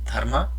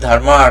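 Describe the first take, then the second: First: The first vowel is kept short. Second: The first vowel is drawn out long. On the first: The speaker calls it right. "with a short vowel" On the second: The speaker calls it wrong. "It's not dharma"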